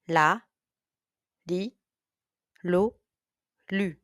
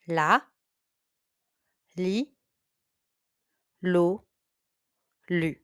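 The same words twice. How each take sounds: First: The syllables are said at a fast pace. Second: The syllables are said at a moderate pace. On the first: "A little bit faster now" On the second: "Repeat after me"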